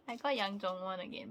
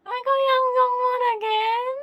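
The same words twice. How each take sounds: First: Said in the usual way. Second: Loud, high shriek of disbelief; squealing I got him again; excited shout. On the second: Real, not acted. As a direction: yell it out, half laughing at the bad luck. Unboxing a repeat photocard.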